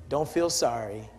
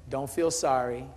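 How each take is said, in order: Both takes have the same delivery.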